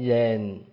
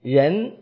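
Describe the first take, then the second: First: Low, dipping tone, as in Hubei speech. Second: Rising tone, as in Beijing speech.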